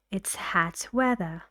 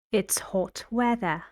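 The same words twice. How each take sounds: First: "hat" with the open a of cat, stress on "weather"; short a in hat. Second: "hot" with an open back o, stress on "weather"; short o in hot. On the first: Teacher contrasting vowels for students, "hat" with the a of cat. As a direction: say "hat" with a flat front a. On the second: Teacher contrasting vowels for students, "hot" with a back o. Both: Shown as a demonstration.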